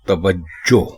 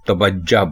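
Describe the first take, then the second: First: The word ends in an 'o' vowel. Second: The word ends in an 'a' vowel. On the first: The speaker calls it right. "जीम के ऊपर पेश लगाकर" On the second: The speaker calls it wrong. "लोग इसको तवज्जा बोलते हैं"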